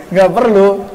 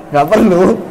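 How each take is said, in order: The two takes are said the same way.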